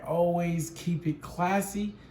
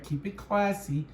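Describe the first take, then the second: First: Slow, drawn-out catchphrase; slow sign-off. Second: Slow catchphrase with falling end; slow sign-off. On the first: Signing off to viewers, slow catchphrase. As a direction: savour the catchphrase slowly. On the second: Repeating sign-off to viewers, slow falling catchphrase. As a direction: land the catchphrase slowly. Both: Acted.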